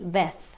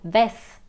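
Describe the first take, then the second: First: It is said with a Spain Spanish accent. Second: It is said with a Latin American accent.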